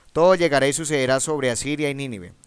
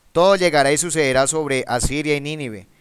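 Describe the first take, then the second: No difference in how they are said.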